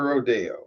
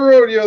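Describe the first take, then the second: First: It is said the way locals say it. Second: It is said the everyday, non-local way. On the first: This is what the locals call it. The speaker calls it right. "they call it a rodeo" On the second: This is not what the locals call it. The speaker calls it wrong. "Don't call it a rodeo"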